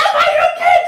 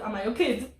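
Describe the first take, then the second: First: High, loud hammed-up outrage; mock angry. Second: Said in the usual way. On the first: Friend overacting the girl's retort in the drama, mock angry yell. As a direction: yell it as an exaggerated scolding, half laughing. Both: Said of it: "she doesn't say that angry".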